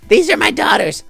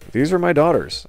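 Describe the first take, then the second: First: It is said in a put-on character voice. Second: It is said in the speaker's natural voice.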